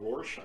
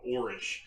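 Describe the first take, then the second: First: The second syllable has an 'osh' sound. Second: The second syllable has an 'ish' sound. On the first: This is the official pronunciation. "I think that's how it's officially pronounced" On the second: This is the pronunciation used out of long habit. "For twenty some years, I always called it Orish"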